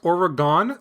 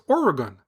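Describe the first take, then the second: First: The stress is not on the first syllable. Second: The stress is on the first syllable. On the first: The speaker calls it wrong. "the incorrect Oregon that I was saying" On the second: The speaker calls it right. "the correct Oregon"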